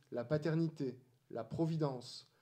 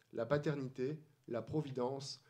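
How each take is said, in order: The two takes are said the same way.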